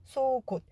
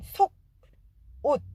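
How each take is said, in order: First: The syllables run together, the consonant carrying over. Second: The two syllables are said apart with a break. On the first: "붙여 읽을 때는 ... 기억이 뒤로 넘어가고 시옷 받침은 디귿처럼 소리가 나서" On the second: "따로따로 읽으면 속, 옷"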